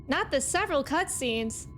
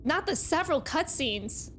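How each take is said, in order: Both takes have the same delivery.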